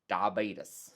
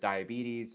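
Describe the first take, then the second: First: The word is said in a Texan regional pronunciation. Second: The word is said in a standard pronunciation. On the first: "where I come from, people say" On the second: "is the correct way to say it"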